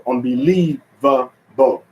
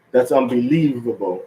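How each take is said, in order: First: "unbelievable" slowly broken up, un-be-LIEV-a-ble; syllable stress. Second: Said in the usual way. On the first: Shown as a demonstration. Teacher showing English stress, "unbelievable" slow, accented on LIEV. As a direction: punch LIEV, then separate the last syllables of "unbelievable". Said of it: "put the accent and then one syllable". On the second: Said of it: "if I say".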